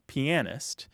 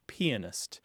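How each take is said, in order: First: The stress is on a later syllable. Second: The stress is on the first syllable. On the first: "There is a second pronunciation, which is less common" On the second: "with an emphasis on the first syllable"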